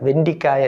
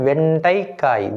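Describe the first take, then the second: First: The second syllable has a short i vowel. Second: The second syllable has an ai vowel. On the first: The speaker calls it wrong. "வெண்டிக்காய் அல்ல" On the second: The speaker calls it right. "வே இன் டை"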